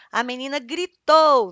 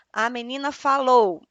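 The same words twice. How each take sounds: First: Louder, slower demo of a yell; a hammed-up louder read of gritou; mock shout. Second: Said in the usual way. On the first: Shown as a demonstration. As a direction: punch it out like she's shouting. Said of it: "nós já sabemos que ela vai gritar". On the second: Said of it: "quando fala assim".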